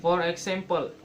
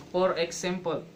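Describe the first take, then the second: No difference in how they are said.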